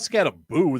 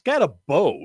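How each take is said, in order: First: The name ends with a long 'oo' sound. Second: The name ends without an 'oo' sound. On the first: The speaker calls it wrong. "It's not Scattaboo. There's not two U's" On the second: The speaker calls it right. "that like it's Scatabo"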